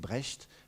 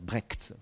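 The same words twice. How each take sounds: First: The name is pronounced in a non-American way. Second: The name is pronounced in an American way. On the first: This is how the speaker used to say it. The speaker calls it wrong. "Moi, je disais Brecht" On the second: This matches the artist's American origin. The speaker calls it right. "Brecht, voilà"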